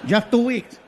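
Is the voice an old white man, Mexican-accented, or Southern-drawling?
Mexican-accented. It is a Mexican Spanish-accented voice.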